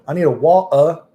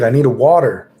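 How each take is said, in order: First: It is said in a put-on British accent. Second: It is said in his normal American accent.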